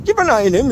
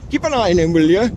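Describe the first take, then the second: First: Higher-pitched mock Geordie, rising at the end; terrible Geordie accent. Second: Said in the usual way. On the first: Vlogger mimicking someone saying keep watch, in a bad Geordie accent. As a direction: badly imitate a Geordie. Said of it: "That's my terrible Geordie accent".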